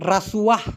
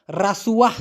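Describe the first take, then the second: No difference in how they are said.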